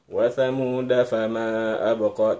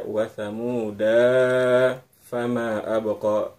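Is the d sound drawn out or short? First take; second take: short; drawn out. First: The d sound is short, flowing straight on. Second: The d sound is lengthened before moving on. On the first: The speaker calls it right. "langsung begitu dal satu ketukan da langsung masuk ke bunyi huruf fa" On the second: The speaker calls it wrong. "tidak dibaca ... dipanjangkan dalnya, itu tidak begitu"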